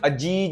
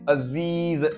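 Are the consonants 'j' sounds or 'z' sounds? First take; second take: j; z. First: Both consonants are 'j' sounds. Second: Both consonants are 'z' sounds. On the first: The speaker calls it wrong. "अजीज नहीं बोलेंगे" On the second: The speaker calls it right. "इसमें दोनों में नुक्ता है"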